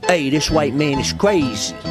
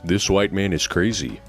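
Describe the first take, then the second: First: It is said with an Italian accent. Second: It is said without an Italian accent.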